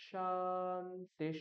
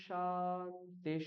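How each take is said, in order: Both takes have the same delivery.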